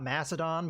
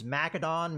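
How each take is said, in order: First: The c is said as an S sound. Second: The c is said as a K sound. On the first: The speaker calls it wrong. "not Macedon" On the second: The speaker calls it right. "I think the C is supposed to be a K"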